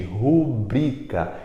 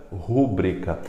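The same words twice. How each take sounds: First: Rubrica slowly with stress on BRI; stress on middle syllable. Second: Rúbrica mispronounced with stress on RÚ; stress on first syllable. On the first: Teacher asking class to repeat, stress on BRI in rubrica. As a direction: say ru-BRI-ca, BRI strongest. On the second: Teacher warning against the wrong form, stress on RÚ in rúbrica. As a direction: say RÚ-bri-ca, RÚ strongest. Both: Shown as a demonstration. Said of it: "e nunca rúbrica".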